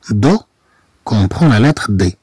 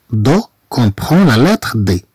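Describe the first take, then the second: No difference in how they are said.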